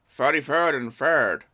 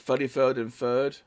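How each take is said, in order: First: It is said in a put-on accent. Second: It is said in his normal accent.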